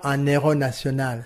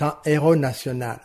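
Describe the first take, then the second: First: An n sound links un to héros. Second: Un and héros are said without a link. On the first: The speaker calls it wrong. "Ce n'est pas" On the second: The speaker calls it right.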